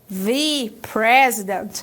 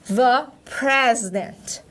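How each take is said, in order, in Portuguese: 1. 'The' tem uma vogal longa e brilhante, como 'thee'. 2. 'The' tem uma vogal curta e neutra, como 'thuh'. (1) "Se eu inverter esse som" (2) "antes de uma palavra que possui uma consoante, eu vou pronunciar the"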